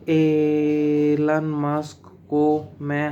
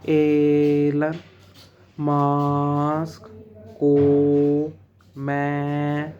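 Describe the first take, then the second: First: Only the first word's opening sound is drawn out. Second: Every word's opening sound is drawn out. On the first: The speaker calls it right. "मैंने एलन मस्क को में ए को खींचा, बस ल को नहीं खींचा" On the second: The speaker calls it wrong. "वो हर शब्द के फर्स्ट लेटर को खींचेंगे, जो गलत है"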